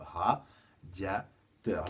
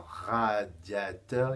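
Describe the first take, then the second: First: Radiateur split into slow syllables, ra-dia-teur; very slow syllabified Radiateur; syllables spelled out. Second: Said in the usual way. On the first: Shown as a demonstration. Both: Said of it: "il y a trois syllabes".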